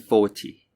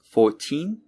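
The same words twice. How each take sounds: First: "forty" with stress on FOR; "forty" as FOR-tee, weight up front; first syllable stressed. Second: Put-on slow "fourteen", stress on TEEN; "fourteen" as four-TEEN, rising; second syllable stressed. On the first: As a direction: lean on the start of "forty", British style with a true T. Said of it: "the first syllable is stressed". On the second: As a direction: lean on the "teen" in "fourteen", British style. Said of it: "the second syllable, the teen, is stressed". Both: Shown as a demonstration.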